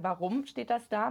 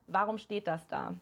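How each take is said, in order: First: The word "das" carries the main stress, slow and deliberate. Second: The word "Warum" carries the main stress, slow and deliberate. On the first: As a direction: point at "das", the thing that is there. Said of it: "Einmal mit der Betonung sozusagen". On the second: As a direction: lean on "Warum" as if truly asking why. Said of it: "stell dir mal die Frage mit zwei verschiedenen Betonungen". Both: Shown as a demonstration.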